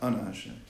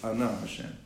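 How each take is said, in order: First: The stress in Ana is on the first syllable. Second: The stress in Ana is on the second syllable. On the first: The speaker calls it wrong. "not Ana Hashem" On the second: The speaker calls it right. "it should be Milara"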